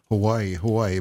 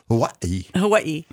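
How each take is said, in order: First: It is said without a glottal stop. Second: It is said with a glottal stop. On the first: This is the older common way. "it's been Hawaii" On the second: This is the newer way locals say it. "but now it's Hawaii"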